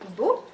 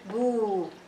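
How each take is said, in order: First: The vowel is short and clipped. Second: The vowel is held for twice as long. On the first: "instead of saying bu" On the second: "together going to be boo, two haraka"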